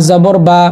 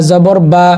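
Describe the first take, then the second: Both takes have the same delivery.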